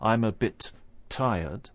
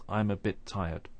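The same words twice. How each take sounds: First: Two separate t sounds are released in bit tired. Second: Only one t sound joins bit and tired. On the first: The speaker calls it wrong. "It's not" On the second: The speaker calls it right.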